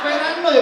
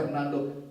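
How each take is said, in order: First: "Fernando" high and loud as "Fenanoy"; mock Vietnamese accent turning Fernando into "Fenanoy"; ugly Vietnamese-accented name. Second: Low, manly "Fernando"; dashing self-introduction. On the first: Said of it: "Jelek banget". ("Fernando" keras berlogat Vietnam) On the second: Retold or imitated. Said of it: "gagah banget ya". ("Fernando" rendah dan gagah)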